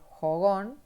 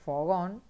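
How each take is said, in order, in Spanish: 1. La palabra empieza con un sonido J aspirado. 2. La palabra empieza con un sonido F. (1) "también la J por la F, como la cambian" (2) "que es fogón"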